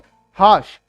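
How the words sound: The r sound is silent. "आर को silent रखना है"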